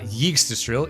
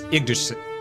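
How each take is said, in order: First: The word starts with a y sound. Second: The word starts without a y sound. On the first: The speaker calls it wrong. "They pronounce the Y in Yggdrasil like the Y in yes? ... it's not Yggdrasil" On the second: The speaker calls it right. "it's Yggdrasil"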